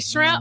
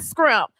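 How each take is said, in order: First: The word begins with a 'shr' sound. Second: The word begins with a 'scr' sound. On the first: The speaker calls it right. "I say shrimp" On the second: The speaker calls it wrong. "not scrimp"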